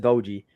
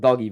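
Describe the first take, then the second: First: The g is a soft sound, like 'j'. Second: The g is a hard sound, like 'dog'. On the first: The speaker calls it right. "it's it's a Doji" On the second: The speaker calls it wrong. "The commentator was saying the same thing with Doggy, but no"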